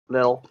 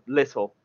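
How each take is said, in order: First: The middle T sound is dropped entirely. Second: The middle T sound is clearly pronounced. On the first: "That you hear that you don't say the T?" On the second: "You know when you say, like, little?"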